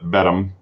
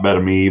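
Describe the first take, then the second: First: The name ends with a short 'um' sound. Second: The name ends with an 'ah-mee' sound. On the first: The speaker calls it right. "but Bedham" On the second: The speaker calls it wrong. "not Bedami"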